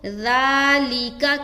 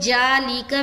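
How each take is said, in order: First: The first sound is a soft, fine th without hiss. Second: The first sound is a j. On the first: The speaker calls it right. "ज़ाल को नरमी के साथ बारीक अदा करेंगे बगैर सीटी के" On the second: The speaker calls it wrong. "ज़ाल हर्फ जीम से चेंज हो जा रहा है"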